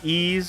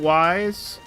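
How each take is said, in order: First: The name is said like the word ease. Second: The name is said like the word wise. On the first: This is the pronunciation used now. "the game is pronounced like ease" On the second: This is the pronunciation used long ago. "I did pronounce it wise"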